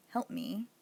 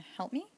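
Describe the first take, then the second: First: "help me" said as a mild command; telling, ordering. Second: "help me" higher, rising on me; asking request. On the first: Teacher ordering someone to help, mild command tone. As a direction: give "help me" as an instruction, not a request. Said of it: "ordering you to help me". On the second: Teacher requesting help by contrast with an order, rising question. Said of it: "the difference between that and". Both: Shown as a demonstration.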